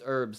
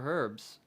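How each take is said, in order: First: The word starts with a vowel, no h sound. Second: The word starts with an audible h sound. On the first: The speaker calls it right. "It's herbs" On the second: The speaker calls it wrong. "I fucking said it with the H"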